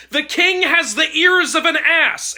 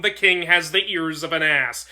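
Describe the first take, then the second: First: Screaming. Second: Said in the usual way. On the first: A narrator's reading. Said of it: "and screamed into it". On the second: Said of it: "they played the song".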